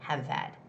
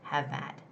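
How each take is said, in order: First: The h is dropped, linking the two words. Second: The h is dropped, linking the two words.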